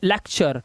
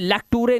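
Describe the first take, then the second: First: The middle consonant is a 'ch' sound. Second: The middle consonant is a plain 't' sound. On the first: The speaker calls it right. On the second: The speaker calls it wrong.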